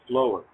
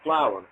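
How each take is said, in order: First: The word rhymes with grower. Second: The word does not rhyme with grower. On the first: This is how the speaker says it. "I pronounce it flower. Uh, you know, just like grower, flower" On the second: This is how other people say it. "you pronounce it flower"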